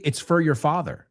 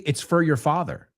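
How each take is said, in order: First: The word 'for' is reduced to a weak vowel. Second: The word 'for' is reduced to a weak vowel.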